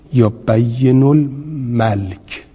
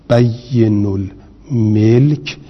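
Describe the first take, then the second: First: الملک said as al-malk, with a after م; slow بین الملک with al-malk, falling; vowel a reading. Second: الملک said as al-milk, with i after م; slow, stretched بین الملک with al-milk; vowel i reading. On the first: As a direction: demonstrate the al-malk vowel, drawn out. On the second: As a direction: demonstrate the al-milk vowel, drawn out. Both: Shown as a demonstration. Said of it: "اما نمیشه شما بگویید".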